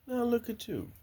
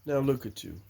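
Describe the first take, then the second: First: High, soft fond voice; high, fond coo to the chickens. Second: Said in the usual way. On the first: Real, not acted. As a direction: coo at the grown hens. Talking to grown hens.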